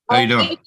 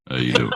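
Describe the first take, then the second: First: It is said in an ordinary speaking voice. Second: It is said in a deep, smooth voice. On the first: The speaker calls it wrong. "Just like that?" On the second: The speaker calls it right. "listen to his deep voice"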